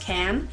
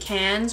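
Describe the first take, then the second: First: The final S sound is left silent. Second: The final S sound is pronounced. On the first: The speaker calls it right. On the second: The speaker calls it wrong.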